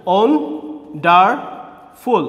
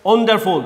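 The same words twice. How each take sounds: First: "wonderful" very slow in three separate beats; split into syllables. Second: Said in the usual way. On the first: Shown as a demonstration. Teacher counting three parts for students, "wonderful" split syllable by syllable. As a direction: pause after each syllable of "wonderful". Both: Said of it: "এখানে হচ্ছে তিনটা".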